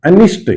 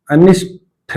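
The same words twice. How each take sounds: First: The corrected अनिष्ट, hit clearly; correct pronunciation. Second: अनिष्ट said slowly as the wrong form, with a plain st ending; slow, deliberate wrong take of अनिष्ट; wrong pronunciation. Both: Shown as a demonstration. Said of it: "अनिष्ट नहीं".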